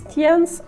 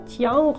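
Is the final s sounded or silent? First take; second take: sounded; silent. First: The final s is pronounced at the end. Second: The final s is silent at the end. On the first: The speaker calls it wrong. "не «в'єнс», «т'єнс»" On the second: The speaker calls it right. "а «в'ян», «т'ян»"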